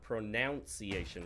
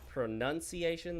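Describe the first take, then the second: First: The second syllable sounds like noun, keeping the O. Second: The second syllable sounds like nun, without the O. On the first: The speaker calls it wrong. "which is just wrong" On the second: The speaker calls it right. "the correct one"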